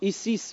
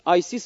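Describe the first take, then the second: First: The name begins with an 'ee' sound. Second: The name begins with an 'eye' sound. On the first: The speaker calls it wrong. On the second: The speaker calls it right.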